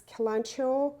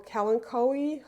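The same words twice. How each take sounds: First: Kalanchoe said as "kuh-LAN-cho"; CH pronunciation. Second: Kalanchoe said as "kal-an-KOH-ee"; hard K pronunciation. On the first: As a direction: say Kalanchoe with a CH as in church. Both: Shown as a demonstration. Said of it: "however you pronounce it".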